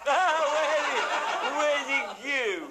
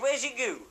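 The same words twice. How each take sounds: First: Repeating where's it goo while cracking up, high and slow; laughing through it. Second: Said in the usual way. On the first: Retold or imitated. Storyteller retelling the farmer's odd question, laughing.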